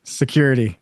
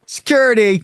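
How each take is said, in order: First: Said in the usual way. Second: Security said high and loud, mocking; high, loud mock repeat of Security; mock pronunciation. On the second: Shown as a demonstration. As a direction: blurt out Security in a high, exaggerated voice. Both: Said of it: "I meant security".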